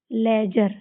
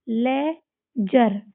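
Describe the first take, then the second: First: Said in the usual way. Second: laser stretched out slowly, no d sound; slow teacher model reading; slow demo word. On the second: Shown as a demonstration. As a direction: drag the word out so pupils hear each part. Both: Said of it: "इसमें भी डी को silent कर देंगे".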